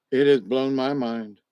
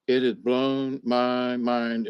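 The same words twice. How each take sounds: First: Said in the usual way. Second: "It has blown my mind" said slowly, each word weighed; slow emphatic repeat. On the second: Real, not acted. Recovering patient repeating it for viewers, slow and emphatic. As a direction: let it sink in, slower.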